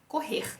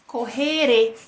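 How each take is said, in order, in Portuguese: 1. O r final termina a palavra, sem vogal depois. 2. O r final se liga ao som de vogal seguinte. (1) "Esse é o meu sotaque" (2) "se eu falo correr e junto com o som de vogal depois, eu mudo"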